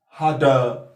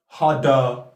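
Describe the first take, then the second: The two takes are said the same way.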